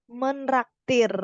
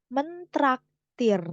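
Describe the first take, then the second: First: Menraktir said slowly with no t sound; wrong form, slow. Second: Mentraktir said slowly with a clear t after men; correct form, slow. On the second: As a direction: spell out Mentraktir, sounding the t fully. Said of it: "bukan menraktir". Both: Shown as a demonstration.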